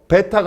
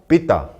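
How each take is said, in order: First: The first vowel is an 'e' sound. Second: The first vowel is an 'ee' sound. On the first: This is the local way of reading it. "베타가 아니라" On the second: This is claimed as the Greek way. "에를 다 이로 읽어요"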